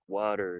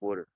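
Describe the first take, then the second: First: The word is said slowly and carefully. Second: The word is said quickly and loosely. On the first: This is how others expect it said. "It's not water" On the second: This is how the speaker's people talk. "like quicker and easy"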